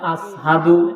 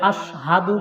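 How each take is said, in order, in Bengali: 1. শব্দটি সাধারণ 's' ধ্বনি দিয়ে বলা হয়। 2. শব্দটি 'sh' ধ্বনি দিয়ে বলা হয়। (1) "শিন বলতে পারে না" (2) "বলে আশহাদু বলবে"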